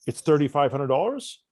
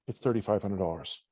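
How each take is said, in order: First: Said in the usual way. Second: Low, soft, unconfident price quote; voice trailing off. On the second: Shown as a demonstration. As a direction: let the price sink away without conviction. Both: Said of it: "if your voice trailed off".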